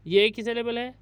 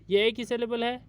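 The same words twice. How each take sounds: The two takes are said the same way.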